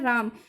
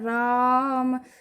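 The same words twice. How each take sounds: First: The first vowel is said quickly, without holding. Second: The first vowel is held for a long time. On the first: "हम सीधा सीधा यहाँ पर ये नहीं कहा" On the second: "अगर इतना बोलने में हमें टाइम लगे"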